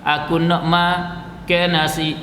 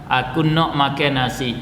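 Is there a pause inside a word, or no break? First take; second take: mid-word pause; no break. First: A pause breaks the middle of a word. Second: Each word is said whole without breaks.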